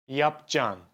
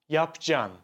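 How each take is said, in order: No difference in how they are said.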